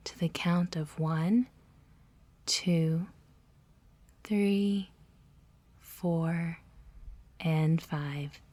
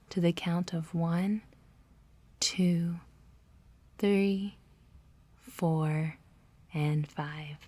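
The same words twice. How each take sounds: The two takes are said the same way.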